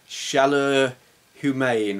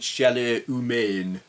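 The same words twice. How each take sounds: First: It is said with an English accent. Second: It is said with a French accent.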